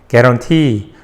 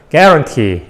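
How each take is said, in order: First: The stress is on the last syllable. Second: The stress is on the first syllable. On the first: "강세가 뒤에 있습니다" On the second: "강세가 한 음절씩 앞으로, 앞으로, 앞으로 움직일 겁니다 ... guarantee 이렇게 발음이 될 수도"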